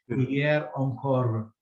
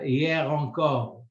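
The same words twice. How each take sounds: First: The R is made like an English R. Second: The R is made in the back of the throat. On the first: The speaker calls it wrong. "They don't say hier encore" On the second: The speaker calls it right. "Usually the R they they they pronounce it as a Ra"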